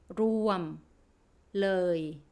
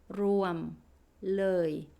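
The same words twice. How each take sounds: Both takes have the same delivery.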